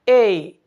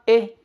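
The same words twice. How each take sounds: First: The vowel is said long and drawn out. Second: The vowel is said short and clipped. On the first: The speaker calls it right. "थोड़ा सा उसको extend करना है" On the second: The speaker calls it wrong. "हम ए नहीं बोलते"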